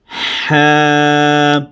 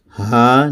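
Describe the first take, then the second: First: A forceful h from mid-throat is used. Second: A light, plain h sound is used. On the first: The speaker calls it right. "गले के दरमियान से अदा करना है... ज़ोर लगा के" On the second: The speaker calls it wrong. "अब हा को हमने हा नहीं पढ़ना"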